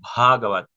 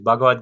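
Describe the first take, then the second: First: The first consonant has a breathy throat release. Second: The first consonant is plain, without breath. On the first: The speaker calls it right. "sino Bhagavad, que se haga ese acento" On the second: The speaker calls it wrong. "no es Bhagavad Gita"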